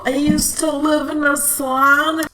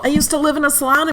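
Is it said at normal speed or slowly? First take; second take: slowly; normal speed. First: It is said slowly. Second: It is said at normal speed.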